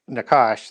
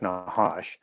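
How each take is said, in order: First: The word is said with an anglicized pronunciation. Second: The word is said with a Hebrew pronunciation. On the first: "we pronounce it Nakash" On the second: "The Hebrew pronunciation will be more like Nahash"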